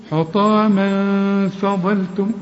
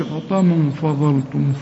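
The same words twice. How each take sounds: First: حطاما فضلتم slow, light ghunna, ظ heavy; correct recitation. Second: حطاما فضلتم with a heavy ghunna, the wrong way; wrong reading. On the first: Teacher showing the right reading, slow and careful. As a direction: intone حطاما فضلتم slowly with a thin ف and a full ظ. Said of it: "شوف". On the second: Teacher showing the mistake to avoid. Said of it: "لكن ما نقولش". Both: Shown as a demonstration.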